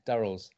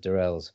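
First: The name is said the speaker's own, non-American way. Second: The name is said the way Americans say it. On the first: The speaker calls it right. "But Durrells" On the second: The speaker calls it wrong. "Americans, even if they've seen the show, pronounce it as Durrells"

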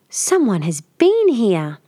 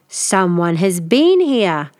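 First: The voice is a soft growl. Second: The voice is a loud growl. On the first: A middle-sized bear is speaking. "Mother Bear growled, more softly" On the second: A big bear is speaking. "Father Bear growled"

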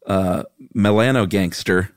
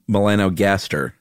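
First: The middle of the word sounds like gangster. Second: The middle of the word sounds like gaster. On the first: The speaker calls it wrong. "it's impossible to read this next word without reading it like this" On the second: The speaker calls it right. "but it's not gangster, unfortunately. Right. It's melanogaster"

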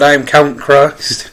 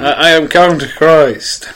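First: It is said in a plain, normal voice. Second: It is said in a put-on foreign accent.

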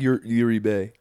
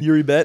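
First: The name is read in a French way. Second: The name is read in a plain English way.

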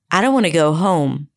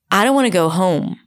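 No difference in how they are said.

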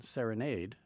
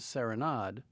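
First: It is pronounced the English way. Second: It is pronounced the French way. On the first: It refers to the music. "I'm using the English pronunciation" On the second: It refers to the ballet. "and the French pronunciation"

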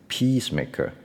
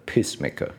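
First: The first vowel is long. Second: The first vowel is short. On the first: It means a maker of peace. The speaker calls it right. "前面第一个是长音" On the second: It sounds like a maker of urine. The speaker calls it wrong. "后面的那个是短音"

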